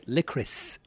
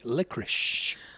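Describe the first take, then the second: First: The word ends with an s sound. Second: The word ends with an sh sound. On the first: The speaker calls it right. "you say licorice" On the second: The speaker calls it wrong. "We say licorice. But there's not an SH at the end of it"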